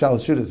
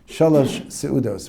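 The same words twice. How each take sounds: First: The phrase is said quickly and run together. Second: The phrase is said slowly with each word clear. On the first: This is how people commonly say it. "Because people say it quickly" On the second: This is what the name really is.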